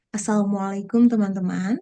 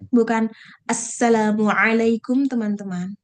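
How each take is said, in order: First: The doubled consonant and ain sound are soft. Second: The doubled consonant and ain sound are sharp. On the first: The speaker sounds neutral. The speaker calls it right. "ainnya pun jangan terlalu tajam" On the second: The speaker sounds like a religious teacher. The speaker calls it wrong. "Jangan terlalu ustadz banget"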